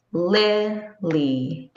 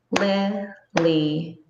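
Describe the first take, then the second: First: "Lillian" broken up, heavy on LIL; stress on first beat. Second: "Lillian" split into three separate even beats; "Lillian" counted out as lil, lee, an; syllable by syllable. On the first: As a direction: punch the first beat of "Lillian", then two lighter beats. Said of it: "the stress is on the first beat". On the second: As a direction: say "Lillian" slowly, a pause between each beat. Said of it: "a syllable is a beat in a word". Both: Shown as a demonstration.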